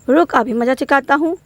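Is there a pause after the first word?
no. It runs on with no pause after the first word. The words carry no real force. "अगर मैंने यह अल्प विराम पर नहीं रुकती हूँ"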